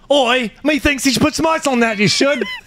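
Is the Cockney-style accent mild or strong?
strong. The accent is put on heavily and aggressively. "It's so aggressive"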